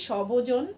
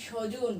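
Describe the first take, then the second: First: সবজন with the ব sounded, louder; wrong pronunciation. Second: স্বজন said as shojon, ব silent; correct pronunciation. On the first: Teacher shows the wrong way: সবজন with a b. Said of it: "মানে ব এর উচ্চারণ কি করি?". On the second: Teacher models the right way: স্বজন as shojon. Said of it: "তাহলে আমরা কি বলি?". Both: Shown as a demonstration.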